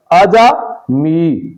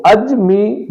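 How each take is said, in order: First: عجمی split slowly, "aja-mi"; a short a after the j in عجمی, slowly: "a-ja-mi"; درست تلفظ. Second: اجمی split slowly, "aj-mi"; غلط تلفظ. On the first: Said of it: "عجمی درست تلفظ ہے". (عجمی، جیم پر زبر کے ساتھ) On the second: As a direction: stop on the j in اجمی, no vowel after it. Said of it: "تو اجمی غلط". (اجمی، جیم ساکن کے ساتھ) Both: Shown as a demonstration.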